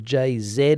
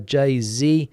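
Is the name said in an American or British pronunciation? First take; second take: British; American. First: It is said in a British pronunciation. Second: It is said in an American pronunciation.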